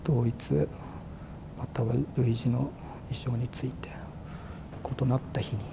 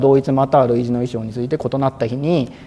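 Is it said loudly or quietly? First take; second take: quietly; loudly. First: It is said in a small, quiet voice. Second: It is said in a clear, normal voice.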